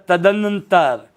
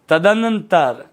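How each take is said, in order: The two takes are said the same way.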